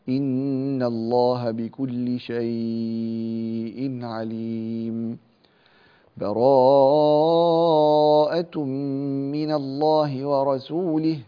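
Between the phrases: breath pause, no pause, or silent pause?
breath pause. A full stop with a breath separates the phrases. "أو الوقف بينهما بتنفس"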